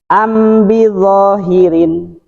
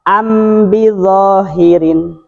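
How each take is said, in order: No difference in how they are said.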